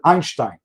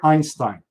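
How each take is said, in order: First: The name is said with a Polish Yiddish accent. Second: The name is said with a plain American accent.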